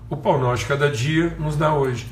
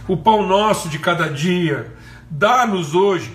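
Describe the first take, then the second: First: It is said plainly, without pleading. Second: It is said in a pleading, begging tone.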